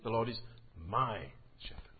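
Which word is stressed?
my. The word my carries the main stress. It answers whose shepherd he is. "Whose shepherd is he?"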